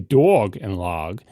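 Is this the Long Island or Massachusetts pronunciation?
Long Island. It is said with a Long Island accent. "if I was in Long Island, that's how I would say it"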